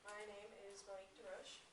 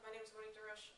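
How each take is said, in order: First: It is said at a normal, quieter volume. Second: It is said loudly, projected, with a smile.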